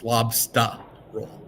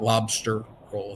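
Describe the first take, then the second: First: It is said in a Boston accent. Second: It is said in a general American accent. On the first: The speaker calls it right. "That's how we say it in Boston" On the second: The speaker calls it wrong. "It's not lobster roll"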